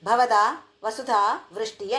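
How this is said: The phrase is split after bhavadaa, then vasudhaa. The words are divided incorrectly. The speaker calls it wrong. "అనేది అది కాదు"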